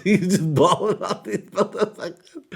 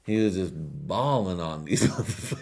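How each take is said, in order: First: Much higher and louder, laughing through it; laughing squeal. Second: Said in the usual way. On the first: Shown as a demonstration. Repeating the line to the audience, a high loud laughing squeal. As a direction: squeal it out while cracking up. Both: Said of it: "repeated in a squeal".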